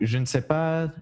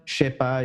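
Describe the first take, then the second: First: The word 'ne' is fully pronounced. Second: The word 'ne' is left out.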